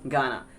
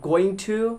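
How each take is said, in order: First: The words are reduced and run together. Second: Both words are said fully and separately. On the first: "you gotta use gonna instead of going to" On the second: "instead of going to"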